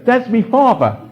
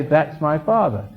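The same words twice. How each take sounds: First: "me father" with MY reduced to "me", high and loud; mock common British "That's me father"; slangy British pronunciation. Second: "my father" said slowly with a full MY; slow, careful "That's my father"; proper English pronunciation. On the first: Father mimicking a kid's bad English, high loud "me father". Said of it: "you don't say". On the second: Teaching a kid to say it properly, slow clear "my father". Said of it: "I try to get a kid to say". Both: Shown as a demonstration.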